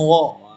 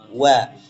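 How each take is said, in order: First: The vowel is rounded, sounding like 'o'. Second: The vowel is open, sounding like 'a'. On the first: The speaker calls it wrong. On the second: The speaker calls it right.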